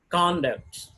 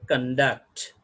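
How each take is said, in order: First: The stress is on the first syllable. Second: The stress is on the second syllable. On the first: It is used as a noun. "For the purpose of a noun, we are going to put the stress mark on the beginning of the syllable" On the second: It is used as a verb. "If it is a verb, the stress has going to shift to the duct"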